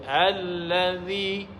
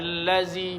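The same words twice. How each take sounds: First: The middle consonant is a voiced th sound. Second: The middle consonant is a plain z sound. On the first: The speaker calls it right. "baca allazi. Beza dzal dengan huruf zai" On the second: The speaker calls it wrong. "jangan allazi"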